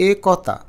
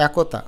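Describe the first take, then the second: First: একতা as 'e-kaw-ta'; spelling pronunciation. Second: একতা as 'ae-ko-ta'; natural pronunciation. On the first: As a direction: close এ and open ক in একতা. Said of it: "বানান অনুযায়ী উচ্চারণ করি". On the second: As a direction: open অ্যা, rounded 'ko' in একতা. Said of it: "বলি একতা". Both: Shown as a demonstration.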